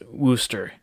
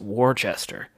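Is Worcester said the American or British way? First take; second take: British; American. First: The name is said the British way. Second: The name is said the American way. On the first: "British ship, yeah, it'd be pronounced Wooster" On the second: "in the majority of the United States, it's actually pronounced Worcester"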